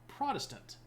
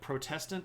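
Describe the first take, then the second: First: The stress is on the first syllable. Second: The stress is on the second syllable. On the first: It sounds like being for something. "you shift the emphasis to Protestant, because then you're pro something" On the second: It refers to people who protest. "the right way to pronounce that word"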